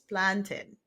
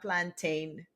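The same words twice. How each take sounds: First: The last syllable is reduced, like in mountain. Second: The last syllable is a full 'tane' sound. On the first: The speaker calls it right. "just like you have mountain and fountain, it's plantain" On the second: The speaker calls it wrong. "It's not plantain"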